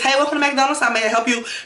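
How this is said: It is said in a lively, flamboyant voice.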